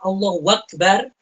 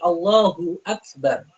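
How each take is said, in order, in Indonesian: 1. Bunyi w datang sebelum Akbar. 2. Tidak ada bunyi w sebelum Akbar. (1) "Tidak dikatakan Allahu Akbar. Wakbar, tidak" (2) "Hu-nya itu juga pendek"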